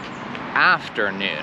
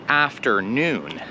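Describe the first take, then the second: First: The stress is on the first part, after. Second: The stress is on the last part, noon. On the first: The speaker calls it wrong. "they're putting the stress on the after" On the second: The speaker calls it right. "pretend that it is two words"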